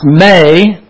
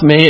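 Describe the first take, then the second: First: The vowel sounds like 'ay'. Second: The vowel sounds like a long 'ee'. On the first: The speaker calls it right. "it's pronounced may" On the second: The speaker calls it wrong. "It's actually not pronounced me"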